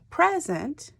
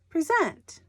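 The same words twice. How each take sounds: First: The stress is on the first syllable. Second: The stress is on the second syllable. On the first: It means a gift. "present is a gift" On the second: It means to offer or show. "If the emphasis is on the second syllable, then this word is present"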